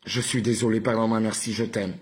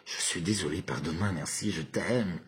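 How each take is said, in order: First: Mild mock anger, firmly pushed. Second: Low, softened, longing delivery; with desire. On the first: Showing viewers the mantra with anger, mildly angry. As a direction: push the phrases out with some anger. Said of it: "Avec colère". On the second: Showing viewers the mantra with desire, low and tender. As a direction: lower the voice and caress the phrases. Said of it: "Avec désir". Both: Shown as a demonstration.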